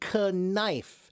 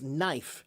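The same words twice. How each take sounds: First: The initial k is pronounced. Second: The initial k is silent. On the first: This is the old original pronunciation. "a long time ago, we did pronounce it as knife" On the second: This is the modern pronunciation. "now we pronounce it as knife"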